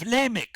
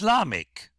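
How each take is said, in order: First: The name is said in its ordinary form. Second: The name is said in its pausal form. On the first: This is how it appears in the following verses. "But in the following verses, you have Lamech" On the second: This is how it appears the first time in the text. "according to the Masoretic rule, because it's spousal, it's Lamech"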